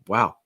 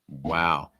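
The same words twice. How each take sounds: First: It sounds excited, short and higher in pitch. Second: It sounds disappointed, drawn out and lower in pitch. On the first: Something good and surprising happened. "Wow shows surprise, firstly, usually in a positive way" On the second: Something bad and letting down happened. "lengthening it, lowering the pitch can make it sound a little bit more disappointing and negative"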